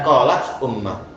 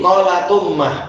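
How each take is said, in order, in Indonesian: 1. Hentian glotal memisahkan qalat dari ummah. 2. Huruf t langsung menyambung ke u. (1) "bukan qolat ummah" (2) "Sehingga jadi qolatummah"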